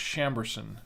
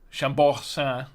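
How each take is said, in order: First: The name is said with American-style pronunciation. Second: The name is said with French-style pronunciation. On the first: "here in the States it's pronounced Chamberson" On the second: "I think it's how they the, uh, the French pronounce it"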